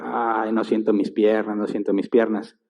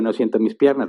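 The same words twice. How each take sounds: First: Mock groaning. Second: Said in the usual way. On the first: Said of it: "se empezó a quejar". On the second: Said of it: "alguien dice".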